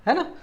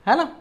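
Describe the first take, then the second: No difference in how they are said.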